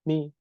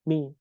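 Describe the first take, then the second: The two takes are said the same way.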